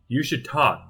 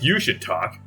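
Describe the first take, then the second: First: The word 'you' carries no special emphasis. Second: The word 'you' carries strong emphasis. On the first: The speaker calls it wrong. "The way Bennett said it, it was like" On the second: The speaker calls it right. "I feel like it should be like, you, like, you should talk"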